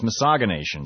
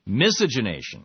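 First: Misogynation, said like misogyny plus -nation; caller's wrong pronunciation. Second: Miscegenation? said as mis-EJ-in-AY-shun, a questioning echo; correct pronunciation checked. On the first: Retold or imitated. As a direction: read misogynation as the caller's mangled word, miss-OJ-in-AY-shun. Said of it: "another one say it's misogynation". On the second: Shown as a demonstration. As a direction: repeat Miscegenation? as the corrected form, with a rise of doubt. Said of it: "The pronunciation is miscegenation".

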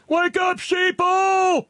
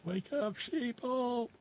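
First: Very high, loud hammed-up holler; full-throated, high-pitched mock alarm; mock rallying shout. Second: Very high, hushed squeal; soft falsetto mock holler; small mock cry. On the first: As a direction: shout it like a mock crank's battle cry. Reads listener's rallying cry aloud. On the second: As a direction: echo the rallying cry in a tiny high voice. Repeats the cry after laughing.

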